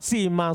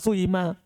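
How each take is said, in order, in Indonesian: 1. Vokal pertama adalah bunyi i murni. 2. Vokal pertama campuran antara u dan i. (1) "Ikhlas kasro" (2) "Boleh tidak ikhlas"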